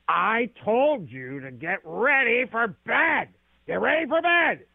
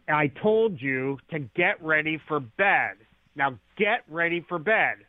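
First: It is irritated, with a gravelly voice. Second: It is sharp and annoyed, without gravel.

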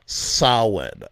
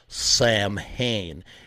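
First: The first syllable rhymes with cow, then 'in'. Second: The first syllable does not rhyme with cow. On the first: The speaker calls it right. "It's the sow like a cow and then in" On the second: The speaker calls it wrong. "It's not Samhain"

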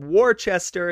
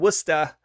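First: The name is said as it is spelled. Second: The name is said the local way. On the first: The speaker calls it wrong. "I said it incorrectly" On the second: The speaker calls it right.

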